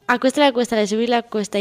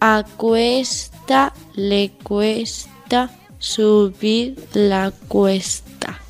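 First: The phrase is spoken fast. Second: The phrase is spoken slowly. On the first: "Velocidad rápida"

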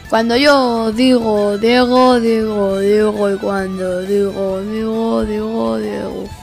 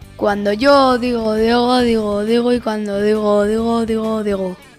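First: It is said at the slowest speed. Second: It is said at a medium speed.

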